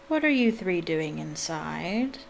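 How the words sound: It is read in a deep character voice. A stern male character is speaking. The speaker calls it wrong. "what deep voice you have"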